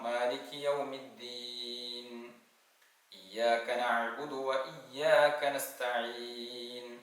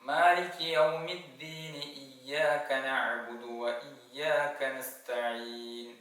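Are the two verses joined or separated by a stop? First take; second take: separated; joined. First: There is a stop between the verses. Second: The verses run together without a stop. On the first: "ഒന്നുകിൽ നിർത്തി ഓതാം" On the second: "ചേർത്തി ഓതുമ്പോൾ"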